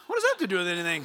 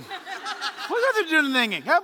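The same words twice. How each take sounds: First: Said in the usual way. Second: Amused disbelief, half laughing; incredulous. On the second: Shown as a demonstration. Preacher mocking a churchgoer's lame excuse, amused disbelief. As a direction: repeat it like you can't believe the excuse. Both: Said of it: "repeated with rising incredulity".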